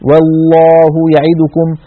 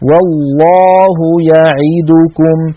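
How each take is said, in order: First: One vowel is rushed shorter than the others. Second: All the vowels are held for equal time. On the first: The speaker calls it wrong. "فنخطف حرف حركة العين أو حركة الدال التي بعدها" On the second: The speaker calls it right. "فنسوي بين زمن الأحرف المتحركة"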